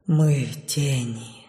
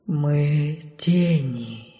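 First: Faint, slow, low whisper; as if on the last breath; dark whisper behind you. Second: Very slow, low and soft; drawn-out ghostly answer; slow shadow voice. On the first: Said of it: "слаженно прошептала четвёрка ... как будто на последнем дыхании". (шёпот на последнем дыхании) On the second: (тягучий голос тени) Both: A narrator's reading.

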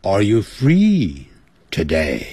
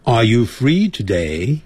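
First: "Are you free today" dropping low on "today"; slow, let "today" sink like a statement; falling question tune. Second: Slow "Are you free today", lifting on "today"; "Are you free today" with an upturned ending; rising question tune. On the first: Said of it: "你不能说". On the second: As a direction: ask it with "today" swung upward. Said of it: "问句的句尾要上扬". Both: Shown as a demonstration.

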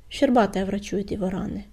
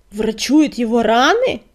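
First: Said in the usual way. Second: Slow, loud, incredulous roar. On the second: A narrator's reading. Deputy echoes the news in disbelief, roaring. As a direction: roar the question back, drawing it out. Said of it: "проревел он".

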